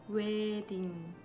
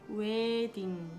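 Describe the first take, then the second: The two takes are said the same way.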